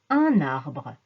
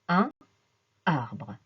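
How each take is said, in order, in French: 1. Le n se lie au mot suivant. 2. Le n ne se lie pas au mot suivant. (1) "on fait une liaison sonore. On dit un arbre" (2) "et pas un arbre"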